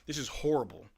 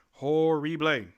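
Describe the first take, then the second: First: Said in the usual way. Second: "Horrible" punched louder and stretched; disgusted emphasis on "Horrible"; emphatic repeat. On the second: Real, not acted. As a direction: lean hard into "Horrible".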